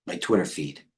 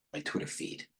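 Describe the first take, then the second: First: Said in the usual way. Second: Whispered to himself, much softer; a soft whisper while searching. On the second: Real, not acted. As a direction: breathe it under your breath. Repeating phrase while searching screen.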